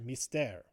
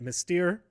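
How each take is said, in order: First: The word has a French-style pronunciation. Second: The word has an English-style pronunciation. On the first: The speaker calls it right. "that's how you pronounce it" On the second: The speaker calls it wrong. "I've been pronouncing it Mystere"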